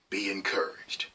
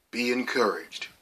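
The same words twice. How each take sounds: First: Soft unvoiced whisper; whispered blessing. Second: Said in the usual way. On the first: Real, not acted. Speaking to viewers, passing on the blessing in a whisper. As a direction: hush it to the viewer like a gift.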